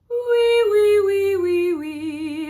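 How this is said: The voice sounds open and spacious, almost yawning.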